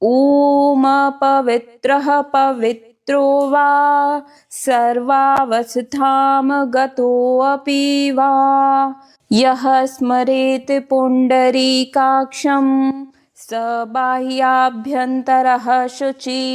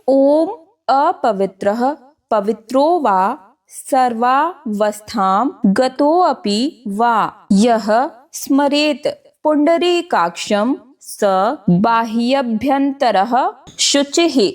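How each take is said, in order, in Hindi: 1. मंत्र परिष्कृत तरीके से बोला जाता है। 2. मंत्र सादे तरीके से पढ़ा जाता है। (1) "पूरे मंत्र को अच्छे तरीके से बोलकर दिखाऊंगी" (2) "एक बार मैं साधारण तरीके से इस मंत्र को पढ़कर बोलकर बताऊंगी"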